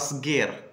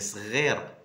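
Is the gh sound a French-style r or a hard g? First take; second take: hard g; French r. First: The gh is said as a hard g. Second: The gh is said like a French r. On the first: The speaker calls it wrong. "c'est pas صغير" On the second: The speaker calls it right. "c'est صغير"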